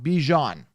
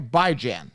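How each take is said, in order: First: The first syllable does not sound like 'by'. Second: The first syllable sounds like the word 'by'. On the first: The speaker calls it wrong. "not Bijan" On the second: The speaker calls it right.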